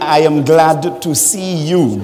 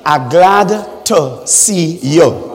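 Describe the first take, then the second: First: It is said in an American accent. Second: It is said in a Trinidadian accent.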